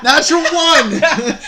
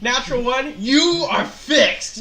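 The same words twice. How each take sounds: First: Real, very loud, high, drawn-out cry with laughter; gleeful shout. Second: Loud, high, laughing exclamation; laughing disbelief. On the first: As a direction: belt it out slowly, delighted by the bad roll. Game master announces a fumbled roll. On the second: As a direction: repeat it through laughter, voice raised. Laughing at the fumbled roll. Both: Real, not acted.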